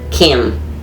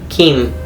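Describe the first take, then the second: First: The vowel is a short, relaxed English i. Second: The vowel is a tense, pure Spanish i. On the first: The speaker calls it wrong. "In English" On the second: The speaker calls it right. "In Spanish"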